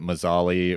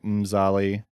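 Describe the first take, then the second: First: A full vowel separates the M and Z. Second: The M runs straight into the Z. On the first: The speaker calls it wrong. "I think we called it Mazali or something" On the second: The speaker calls it right. "but it's like Mzali"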